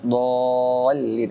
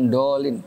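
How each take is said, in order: First: The l sound is doubled and held. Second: The l sound is short and single. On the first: The speaker calls it right. "ada tasjidnya" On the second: The speaker calls it wrong. "Bukan dolin"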